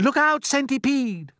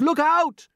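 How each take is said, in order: First: High, loud slow warning; crying out. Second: Higher, louder urgent warning; crying out. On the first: James warning the dancing centipede, loud and high. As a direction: call out in alarm. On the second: James warning the centipede again, louder. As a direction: shout it sharper in alarm. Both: Acted. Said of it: "cried James".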